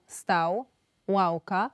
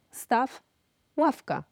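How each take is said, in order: First: "stał" ending in a w-glide, like English w; Ukrainian-style ł sound closing "stał" and mid-"ławka". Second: "staw" ending in f; Polish devoiced w. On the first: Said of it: "Ukraińskim wyrazom typu". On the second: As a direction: say "ławka" with its W as f. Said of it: "polskie wyrazy wymawiane jako". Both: Shown as a demonstration.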